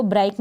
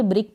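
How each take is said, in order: First: ब्राइक with an "ai" vowel, "brike"; wrong pronunciation. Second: ब्रिक with a short i, "brik"; correct pronunciation. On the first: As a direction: misread ब्राइक to rhyme with bike. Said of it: "इसको ब्राइक नहीं पढ़ेंगे". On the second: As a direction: say ब्रिक to rhyme with kick. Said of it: "ब्रिक पढ़ेंगे". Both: Shown as a demonstration.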